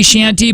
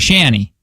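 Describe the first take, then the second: First: The T sound in the middle is pronounced. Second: The T sound in the middle is dropped. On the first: "I thought it might be shanty" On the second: "we say shanny in Michigan"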